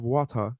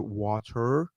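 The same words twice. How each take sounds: First: The word is said in a British accent. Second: The word is said in an American accent. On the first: "instead of water" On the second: "you'll say water"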